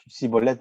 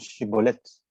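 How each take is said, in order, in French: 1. Le mot commence par un son s. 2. Le mot commence par un son sh. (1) "nous ne prononçons plus cibolette" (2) "Maintenant, nous prononçons chibolette"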